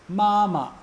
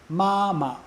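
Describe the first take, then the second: Both takes have the same delivery.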